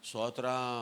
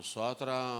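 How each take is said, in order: The two takes are said the same way.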